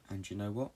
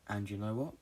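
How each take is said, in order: Both takes have the same delivery.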